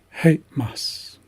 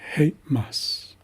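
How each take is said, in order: Both takes have the same delivery.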